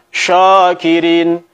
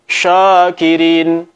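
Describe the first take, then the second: No difference in how they are said.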